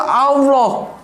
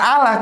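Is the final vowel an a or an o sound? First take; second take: o; a. First: The final vowel sounds like o. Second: The final vowel sounds like a. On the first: "orang Jawa ngomongnya tuh Allah" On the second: "nggak Allah"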